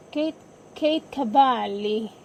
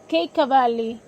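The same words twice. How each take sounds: First: Kate Cavalli with an Italian accent, the k sounds aspirated and Cavalli said as ka-VAH-lee; slipping into Italian accent. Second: Said in the usual way. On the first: Real, not acted. Podcaster reading a draft pick's name, Italian accent. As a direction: roll the name out the Italian way, slowly. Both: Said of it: "my Italian accent came out".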